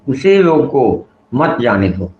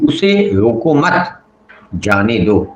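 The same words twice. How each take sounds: First: The pause comes after the word roko. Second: The pause comes after the word mat. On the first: Stop him, do not let him go. "हम विराम चिन्ह को मत से पहले रोको पे ही लगा दिए" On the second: Do not stop him, let him go. "मत के बाद विराम चिन्ह लगा दिए"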